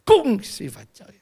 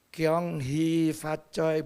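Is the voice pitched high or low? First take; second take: high; low. First: The greeting is said at a high pitch. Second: The greeting is said at a low pitch. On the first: The speaker is Hakka. "Jadi nadanya tinggi ya" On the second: The speaker is Hokkien. "tapi kalau yang nadanya rendah"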